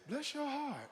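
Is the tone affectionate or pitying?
pitying. It sounds pitying and sympathetic.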